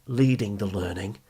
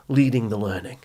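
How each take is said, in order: Both takes have the same delivery.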